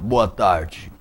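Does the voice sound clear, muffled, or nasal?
muffled. The voice is held back and muffled. "a voz abafada"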